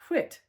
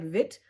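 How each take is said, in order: First: The word begins with a soft W-like sound. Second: The word begins with a clear V sound. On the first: The speaker calls it right. "no, we say whit" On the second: The speaker calls it wrong. "You say like vit for W I T"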